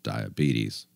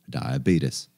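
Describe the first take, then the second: First: It is said in a plain, neutral accent. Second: It is said in a Southern US accent.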